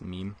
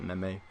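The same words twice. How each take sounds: First: The word is said the usual accepted way. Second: The word is said the way it's spelled. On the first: The speaker calls it right. "but I know it's pronounced meme" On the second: The speaker calls it wrong. "I like to pronounce it meme because that's how it's spelled"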